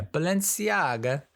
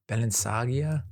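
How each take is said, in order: First: Balenciaga said slowly as "ba-len-see-AH-ga"; checked pronunciation. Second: Balenciaga as a questioning guess, "Balen-SAH-gia"; unsure pronunciation. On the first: Shown as a demonstration. Reviewer confirming how to pronounce it, slow "ba-len-see-AH-ga" for Balenciaga. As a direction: sound out Balenciaga, high and drawn out, with "see-AH-ga". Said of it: "How to pronounce?".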